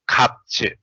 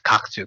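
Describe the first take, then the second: First: The first syllable ends with a p sound. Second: The first syllable ends with a k sound. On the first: The speaker calls it right. "that's p" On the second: The speaker calls it wrong. "we don't read as uh, pro, uh, read that ka as kakju"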